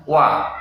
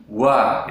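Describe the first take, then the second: First: Crisp wa, no air; correct wa. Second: Wa with a puff of air; wrong breathy wa. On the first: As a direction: say wa clean. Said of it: "Yang benar". (wa yang benar tanpa angin) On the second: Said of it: "itu tidak boleh ya". (wa yang salah dengan angin) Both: Shown as a demonstration.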